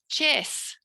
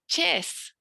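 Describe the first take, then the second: First: The word ends with a hissing S sound. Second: The same.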